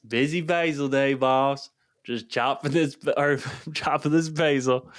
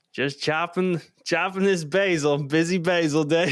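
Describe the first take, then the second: First: Put-on Southern accent, a bit higher, laughing through it; thick Southern accent. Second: Mock the clueless cook in a thick Southern accent. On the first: Retelling the new guy's words again, Southern accent with laughter. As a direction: replay the Southern guy's line with a chuckle. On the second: Cook imitating a clueless new guy, thick Southern accent. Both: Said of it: "Like, a really thick Southern accent".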